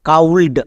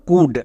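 First: The vowel is 'ow' and the L is sounded. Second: The vowel is short 'oo' and L is silent. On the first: The speaker calls it wrong. "কিন্তু এরকম উচ্চারণ করা হয় না" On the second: The speaker calls it right. "এখানে হস্যকার sound দেবে, এল silent"

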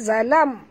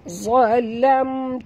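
First: The first consonant is light and thin. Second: The first consonant is heavy and thick. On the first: The speaker calls it wrong. "jangan baca zalam" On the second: The speaker calls it right. "huruf za kena baca tebal"

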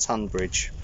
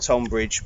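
First: The name is said in its usual spoken form. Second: The name is said the way it is spelled. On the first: "but pronounced Tonbridge" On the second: "Spelt Tonbridge"

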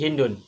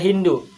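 First: The name ends with a final n sound. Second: The name ends on a vowel, no final n. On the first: The speaker calls it right. "tetapi Hindun" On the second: The speaker calls it wrong.

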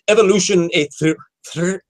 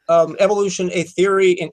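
First: The R in theory is a rolled trill. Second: The R in theory is a plain English R.

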